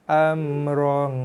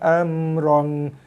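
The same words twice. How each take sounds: First: The vowel is held one beat before the nasal. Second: The nasal follows the vowel immediately, clipping it. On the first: The speaker calls it right. "bunyikan dia dengan kadar satu harakat dulu baru bunyikan, masukkan bunyi dengung" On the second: The speaker calls it wrong. "Bukannya amrong, bukannya terus wrong"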